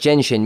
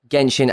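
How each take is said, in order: First: The word begins with a J sound. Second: The word begins with a hard G sound. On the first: The speaker calls it wrong. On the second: The speaker calls it right.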